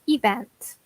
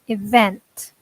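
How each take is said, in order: First: The stress is on the first syllable. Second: The stress is on the second syllable. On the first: The speaker calls it wrong. "I hear this pronounced a lot as event" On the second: The speaker calls it right. "stress is actually on the second syllable"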